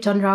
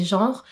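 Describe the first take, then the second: First: Said in the usual way. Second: "genre" said the French way, as one syllable; French pronunciation. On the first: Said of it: "or shall I say genre". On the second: Shown as a demonstration. Book vlogger correcting herself to the French word, "genre" in a French accent. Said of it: "it's actually a French word".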